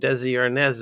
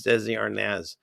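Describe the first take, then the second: First: Desi Arnaz said the common way, as everyone says it; misheard name. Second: Desi Arnaz said the corrected, proper way, a little quieter; correct pronunciation. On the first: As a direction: say Desi Arnaz the usual American way. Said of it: "it's Desi Arnaz". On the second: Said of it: "his name isn't Desi Arnaz". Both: Shown as a demonstration.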